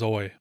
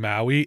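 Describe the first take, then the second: First: The name sounds like one syllable, 'oy'. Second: The name sounds like two syllables, 'owie'. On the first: "my interpretation of their name was Oi" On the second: "call a character with the same name Owie"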